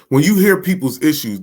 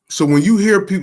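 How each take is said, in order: First: Said in the usual way. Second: Words broken by a burp. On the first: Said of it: "excuse me, too". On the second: Real, not acted. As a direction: speak through a small burp. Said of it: "I just burped".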